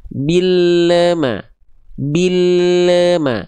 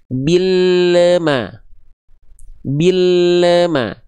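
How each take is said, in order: No difference in how they are said.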